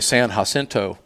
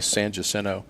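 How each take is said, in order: First: It is pronounced with careful outsider pronunciation. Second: It is pronounced the local Texan way. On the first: The speaker is not from the area. The speaker calls it wrong. "they'll try to be correct and they'll say" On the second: The speaker is from the area. The speaker calls it right. "Texans will say"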